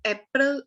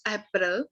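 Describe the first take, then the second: First: Said in the usual way. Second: April opened with an "a" sound, "AP-ril"; German pronunciation. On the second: Shown as a demonstration. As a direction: say April the German way, not "AY-pril". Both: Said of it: "month's name in German".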